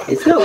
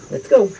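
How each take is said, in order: First: Very high sing-song call; calling chicks. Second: Said in the usual way. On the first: Real, not acted. Owner calling the chicks to come out, very high sing-song.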